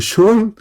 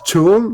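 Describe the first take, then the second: First: It is said with an sh sound. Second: It is said with a ch sound. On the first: "o shol"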